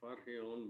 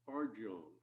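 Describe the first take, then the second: First: The name is said with Spanish-style sounds. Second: The name is said with English-style sounds. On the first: The speaker calls it wrong. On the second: The speaker calls it right. "but no, in fact, it is Eleanor Farjeon"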